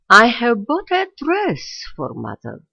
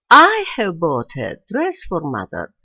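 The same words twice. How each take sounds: First: The stress falls on the word dress. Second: The stress falls on the word I. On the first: What was bought is the new information. "The rime is a dress being marked by a logical stress" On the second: Who bought it is the new information. "the rime is represented this time by the subject I, on which the logical stress falls"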